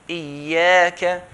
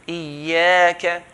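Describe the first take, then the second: No difference in how they are said.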